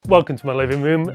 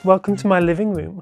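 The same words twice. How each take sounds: First: It is said in a normal voice. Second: It is said in a girly voice.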